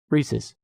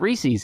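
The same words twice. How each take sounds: First: The word ends with a short 'iz' sound. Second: The word ends with a long 'eez' sound. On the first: The speaker calls it right. "It's Reese's" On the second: The speaker calls it wrong. "you don't add an E E S after an apostrophe"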